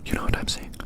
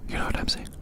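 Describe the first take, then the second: No difference in how they are said.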